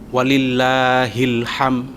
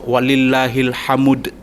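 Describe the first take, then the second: First: The final word ends on a bare m sound. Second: The final word ends with an ud syllable. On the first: The speaker calls it wrong. "itu salah" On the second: The speaker calls it right. "Atau walillahil hamud"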